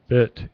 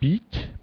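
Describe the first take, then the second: First: The vowel is short and lax. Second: The vowel is long and tense. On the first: The speaker calls it right. "It's a short bit" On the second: The speaker calls it wrong. "You say like beat"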